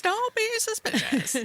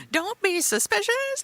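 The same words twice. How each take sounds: First: "Don't BE suspicious." very high, leaning on "be", falling off; stress on be. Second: "Don't be suspicious." squeaked high, rising on "suspicious"; high mock warning. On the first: Friend joking about a shady money scheme, high stressed "be". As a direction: lean hard on "be" up high. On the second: Friend joking about a shady money scheme, high squeaky voice. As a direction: squeak it up like a sneaky cartoon. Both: Shown as a demonstration.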